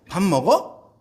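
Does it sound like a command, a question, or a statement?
question. The pitch rises at the end. The listener is asked whether they are eating. "밥을 먹고 있는지 물어보는 상황일 수도 있죠"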